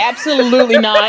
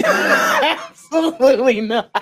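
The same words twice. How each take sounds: First: Firm, loud flat refusal of "Absolutely not". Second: Slow, laughing shout of "Absolutely not". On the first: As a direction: bark out "Absolutely not" at full volume. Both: Acted.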